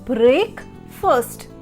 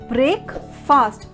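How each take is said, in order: First: The second syllable is reduced, like 'fust'. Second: The second syllable sounds like 'fast'. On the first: The speaker calls it right. "but it will be break first" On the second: The speaker calls it wrong. "how we pronounce it as break fast because of the spelling"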